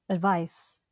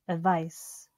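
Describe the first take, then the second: No difference in how they are said.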